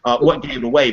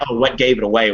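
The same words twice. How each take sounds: First: Sarcastic, stress on "what". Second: Sarcastic, stress on "gave". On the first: Teacher repeating the mocking question, sarcastic. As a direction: punch "what" with a dry sneer. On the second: Teacher mocking an obvious remark, sarcastic. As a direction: lean on "gave" with mock surprise. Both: Retold or imitated. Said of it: "And I'm like".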